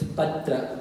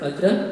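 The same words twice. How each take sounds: First: The first syllable is heavy and stressed. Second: The first syllable is short and unstressed. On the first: The speaker calls it right. "you need to pronounce the pa as a guru" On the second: The speaker calls it wrong. "So it's not patra"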